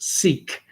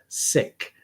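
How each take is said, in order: First: It is said the way most Canadians say it. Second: It is said the way Sikhs themselves say it. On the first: This is how most people in the country say it. "Most Canadians, I find, tend to pronounce it" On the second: This is how members of the faith say it. "That's the way they pronounce it"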